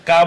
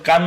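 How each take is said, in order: First: কা ending on an open "aa", no n; কা as an open long vowel; open pausal ending. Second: কান closed with a clear "n"; কান ending on the tongue tip. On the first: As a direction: drop the n and hold the vowel in কা. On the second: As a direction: say কান with the final n sounded. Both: Shown as a demonstration. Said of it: "কান না বলে কা বললাম".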